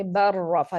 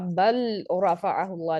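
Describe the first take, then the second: First: बर रफ़ा with no L, one doubled rolled R; fuse the L into a strong R in बर रफ़ा; merged lam into ra. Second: बल with its L sounded clearly before रफ़अहुल्लाह; unmerged lam. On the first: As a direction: run बर straight into रफ़ा on a held R. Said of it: "totally आपने मर्ज कर देना है". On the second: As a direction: keep the L of बल separate from the following R. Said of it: "नहीं पढ़ते". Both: Shown as a demonstration.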